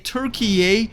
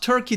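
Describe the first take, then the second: First: The name is said with three syllables, Tür-ki-ye. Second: The name is said with two syllables, Tur-key. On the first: The speaker calls it right. "you probably heard me say Turkey" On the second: The speaker calls it wrong. "not Turkey"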